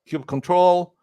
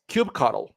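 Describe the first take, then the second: First: The ending is said as the word 'control'. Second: The ending is not said as 'control'. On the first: "it's kube control as well" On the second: "I happen to pronounce it as kubectl"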